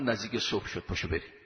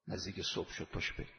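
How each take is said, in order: First: Said in the usual way. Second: Hushed, unvoiced whisper of the quote; softly whispered call to rise at dawn. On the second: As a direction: breathe it like a secret before dawn. Same quote repeated, hushed.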